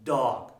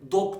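First: The vowel is between 'o' and 'a'. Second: The vowel is a rounded 'o' sound. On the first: The speaker calls it right. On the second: The speaker calls it wrong.

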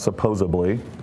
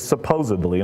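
First: The word is said with a 'b' sound: 'supposably'. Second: The word is said with a 'd' sound: 'supposedly'. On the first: The speaker calls it wrong. "not supposedly" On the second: The speaker calls it right. "but it's supposedly"

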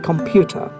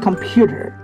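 First: It is said in a British accent. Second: It is said in an American accent. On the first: "And the British say the computer" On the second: "The Americans say the computer"

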